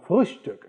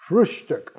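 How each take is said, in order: First: It is said with German-style sounds. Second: It is said with English-style sounds.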